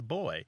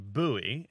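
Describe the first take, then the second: First: It is said the British way. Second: It is said the American way. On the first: "Almost everyone there pronounces the word B-U-O-Y as boy" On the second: "many Americans, although not all Americans, say buoy"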